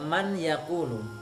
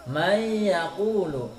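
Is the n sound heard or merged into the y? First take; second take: heard; merged. First: The n is pronounced clearly before the y. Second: The n merges fully into the following y. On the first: The speaker calls it wrong. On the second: The speaker calls it right.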